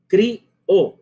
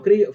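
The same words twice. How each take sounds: First: CRIÓ split in two beats, cri-o, higher; hiatus. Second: CRIÓ run together as a single syllable; one syllable. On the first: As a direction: say Crió as two separate syllables. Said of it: "no crió". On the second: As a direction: say crió quickly as one beat. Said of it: "que es una sola sílaba". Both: Shown as a demonstration.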